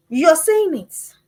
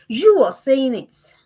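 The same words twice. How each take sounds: First: Slow, weighted "You're saying it"; slow emphatic rebuke. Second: Slow, weighted "you are saying it"; slow emphatic rebuke. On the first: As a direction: spell out "You're saying it" slowly. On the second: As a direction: lean on each word of "you are saying it". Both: Real, not acted. Preacher rebuking the parent.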